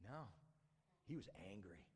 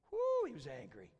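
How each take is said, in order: First: Low, soft statement of anger; understated reveal. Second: High, loud whoop of emphasis; emphatic exclamation. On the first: Preacher reveals the older brother's anger, understated. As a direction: drop low and quiet to state it. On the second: Preacher exclaims at the brother's anger, emphatic whoop. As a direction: open on a loud high "Woo" to stress the anger. Repeat, exclaiming how angry. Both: A narrator's reading.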